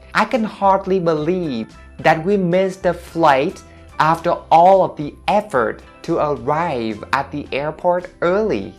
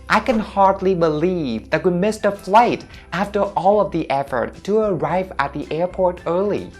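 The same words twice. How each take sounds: First: The sentence is spoken at a slower speed. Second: The sentence is spoken at a faster speed.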